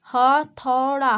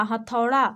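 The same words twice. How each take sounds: First: हथौड़ा drawn out slowly, each syllable clear. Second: Said in the usual way. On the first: Shown as a demonstration. Teacher to kids, spells हथौड़ा out slowly. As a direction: stretch हथौड़ा out for the class. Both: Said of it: "उसी प्रकार यहाँ पे देखिए".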